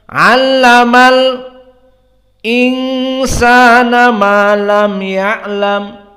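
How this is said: A brief pause comes before the second word. "namun dia sakt, yakni sukut qalilan"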